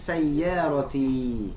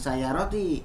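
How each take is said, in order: First: The y sound is doubled and held. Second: The y sound is single and short. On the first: The speaker calls it right. "ya-nya bertasdid kemudian ada madnya" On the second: The speaker calls it wrong. "Jangan sayyaroti"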